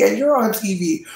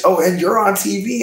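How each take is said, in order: First: High announcer voice landing down; mock TV host, falling. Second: Higher, bright announcer with a rising finish; mock TV host. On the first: Gaslighting onlookers after a chair breaks, a high TV-host reveal falling to a close. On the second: Gaslighting onlookers after a chair breaks, a high rising TV-host reveal. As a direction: sell it like a game-show reveal, ending up. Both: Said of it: "I'm gaslighting everybody".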